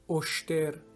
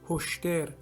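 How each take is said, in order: First: The word begins with no h sound. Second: The word begins with an audible h sound.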